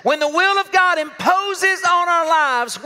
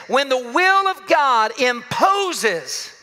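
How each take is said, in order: First: Higher, slow and pressed; slow emphatic. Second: Each word laid out slowly; slow deliberate. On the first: Preacher building the phrase to the congregation. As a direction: build it up as a proclamation. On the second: Preacher slowing to stress his main point. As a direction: lean into the phrase, unhurried. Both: Shown as a demonstration. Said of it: "I wanna say it like this".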